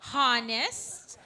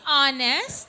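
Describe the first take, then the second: First: The word begins with an audible h sound. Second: The word begins with a vowel, h silent. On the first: The speaker calls it wrong. "remember we said it's not honest" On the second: The speaker calls it right. "it's honest"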